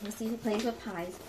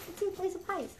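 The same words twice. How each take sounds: First: Said in the usual way. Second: Playful to dogs. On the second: Real, not acted. Repeats line to dogs.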